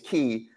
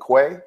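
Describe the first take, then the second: First: The word is pronounced like "key". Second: The word is pronounced like "kway". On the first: This is the original nautical pronunciation. "the proper pronunciation is key" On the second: This is how most people commonly say it. "but everybody calls it Quay"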